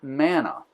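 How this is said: It is said with an English pronunciation. "in English we pronounce it manna"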